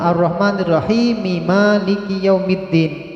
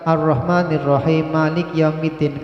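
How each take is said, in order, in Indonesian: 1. Ada bunyi vokal di akhir Malik. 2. Malik berakhir pada konsonannya tanpa vokal.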